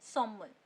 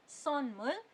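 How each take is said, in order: First: सोमुल with n merged into m; normal-pace reading. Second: सोनमुल with a distinct n before m; careful slow reading. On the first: Teacher shows normal pace, सोमुल with m only. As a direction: run सोमुल together on a humming m. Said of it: "अगर आप उसे normal pace पे बोलोगे". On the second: Teacher shows slow reading, सोनमुल keeping the n. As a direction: separate son and mul in सोनमुल. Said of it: "धीरे धीरे अगर आप पढ़ोगे". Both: Shown as a demonstration.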